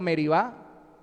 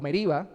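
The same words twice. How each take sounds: First: Meribá with stress on the last syllable; end-stressed Meribá, accent on the á; stress on final Á. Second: Meriba with stress on the middle syllable RI. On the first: Preacher naming the place both ways, Meribá stressed last. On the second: Preacher offering the other reading, Meriba stressed on I. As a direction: say Meriba accented on the i. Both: Shown as a demonstration. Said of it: "el acento en la I".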